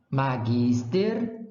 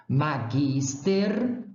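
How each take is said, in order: Both takes have the same delivery.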